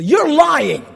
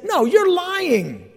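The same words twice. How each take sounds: First: Voicing accuser. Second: Higher, slower confronting accuser; a hint of an angry servant; mock accusation. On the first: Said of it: "he's told specifically". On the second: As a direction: get in his face and call him a liar. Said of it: "Someone got in his face and said".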